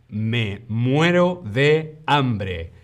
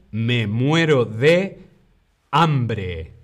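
First: Each word drawn out for learners; slow model phrase for the class; slow, careful demo. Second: Said in the usual way. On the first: Shown as a demonstration. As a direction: say it slowly and clearly, like a teacher.

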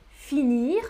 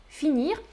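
The two takes are said the same way.

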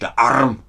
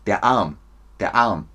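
First: ARM with a heavy, buzzing throaty R; exaggerated trilled R before the m in Arm; rolled r in ARM. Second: ARM as a long "aam", no R; silent R in ARM. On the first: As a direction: overdo the R in Arm. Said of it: "Nicht der Arm". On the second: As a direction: drop the R from Arm. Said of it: "Man hört es nicht". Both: Shown as a demonstration.

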